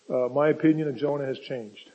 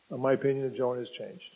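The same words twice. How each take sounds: First: Said in the usual way. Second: Much softer and quicker, an aside; quiet fast aside. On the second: Shown as a demonstration. Preacher confiding a spoiler to the congregation, softer, quick aside. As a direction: drop the voice to confide it. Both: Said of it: "I'll give you a little spoiler".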